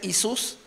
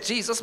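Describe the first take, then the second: First: The name is said with Spanish pronunciation. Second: The name is said with English pronunciation. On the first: This is how people in Puerto Rico say it. "but they say Jesus" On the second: This is not how people in Puerto Rico say it. "They don't say Jesus"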